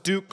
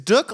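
First: The vowel rhymes with puke. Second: The vowel rhymes with look. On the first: The speaker calls it wrong. "I always thought it was Duke like puke" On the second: The speaker calls it right. "It's Dook like look"

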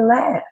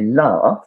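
First: It is said the way American speakers say it. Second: It is said the way English speakers say it. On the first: "in American English, people usually say laugh" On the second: "In English, we say laugh"

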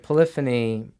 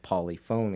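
First: The word is said with its usual pronunciation. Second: The word is said with an odd, comic pronunciation. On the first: The speaker calls it right. "That's a great word" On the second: The speaker calls it wrong. "susceptible to slapstick if you pronounce it polyphony"

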